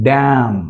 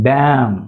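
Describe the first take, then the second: The two takes are said the same way.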